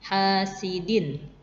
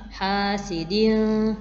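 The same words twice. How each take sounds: First: The final n sound is pronounced clearly and distinctly. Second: The final n sound is blurred and not clearly pronounced. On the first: The speaker calls it right. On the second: The speaker calls it wrong.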